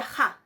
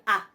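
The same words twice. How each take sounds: First: "ja" opened with an aspirated h; aspirated pronunciation. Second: "a" as a pure open vowel; unaspirated pronunciation. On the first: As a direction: start "ja" on a clear rough breath. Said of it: "eso se pronuncia ja". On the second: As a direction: say "a" with no h before it. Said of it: "caso de espíritus o algo áspero". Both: Shown as a demonstration.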